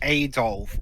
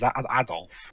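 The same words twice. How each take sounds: First: The first vowel is an American-style 'a'. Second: The first vowel is a hard, open 'a'. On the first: "Americans pronounce it Adolf" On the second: "in the Europe pronounce him as Adolf"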